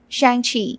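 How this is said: The name is said with American English sounds. "Let's go with the Americanized pronunciation"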